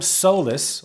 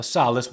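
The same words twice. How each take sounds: First: "solace" with a long O, SOH-lus; long O pronunciation. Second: "solace" with an open first vowel, SAH-lus; open vowel pronunciation. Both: Shown as a demonstration. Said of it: "however you wanna pronounce it".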